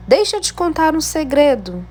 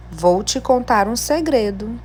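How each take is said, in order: First: Lifted, eager exclamation read high; exclamatory tone. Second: Said in the usual way. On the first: Shown as a demonstration. Teacher showing pupils an exclamation mark, excited exclamatory reading. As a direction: announce the secret with excitement. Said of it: "Eu utilizei o ponto de exclamação". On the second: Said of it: "Utilizei o ponto final".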